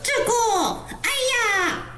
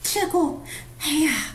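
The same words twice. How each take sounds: First: It is said stiffly, with no breath. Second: It is said naturally with an audible breath.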